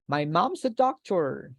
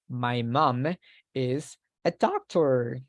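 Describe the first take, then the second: First: The words 'mom is' are contracted to 'mom's'. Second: The words 'mom is' are said in full.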